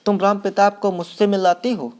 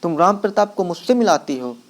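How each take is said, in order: First: A half-raised outraged cry, not a full scream; shouting. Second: Angry, raised voice, the word मिलाती hit hardest; angry shout. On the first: Roshan shouts at his mother, offended, in a mild mock yell. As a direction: cry out at mother over the match, pitched up. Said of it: "चीख कर". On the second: Roshan angrily shouts at his mother about the match. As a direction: throw the question back at her in anger. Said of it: "गुस्से में और चीख कर कहता है". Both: A narrator's reading.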